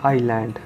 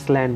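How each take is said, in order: First: The s is silent. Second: The s is sounded. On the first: The speaker calls it right. "इसको बोलेंगे आइलैंड" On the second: The speaker calls it wrong. "इसको इसलैंड नहीं बोलेंगे"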